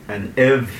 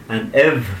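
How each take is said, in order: Both takes have the same delivery.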